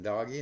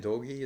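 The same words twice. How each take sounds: First: Doggy with an open AH vowel, "DAH-ghee"; alternative pronunciation. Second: Doggy said with a long O, "DOH-ghee"; alternative pronunciation. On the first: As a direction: say Doggy like the pet word, "daw-ghee". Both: Shown as a demonstration. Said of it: "different ways of pronouncing that word".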